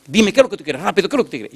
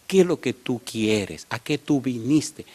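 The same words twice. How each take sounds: First: High, insistent mock impatience; impatient demand. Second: Calmed down. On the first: Woman presses the stranger for his business, impatient demand. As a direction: imitate her pressing for an answer at once. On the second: Retold or imitated. Woman composes herself to question the stranger, calm and slow. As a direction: imitate her reining herself in, word by word. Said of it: "se calma, me dice".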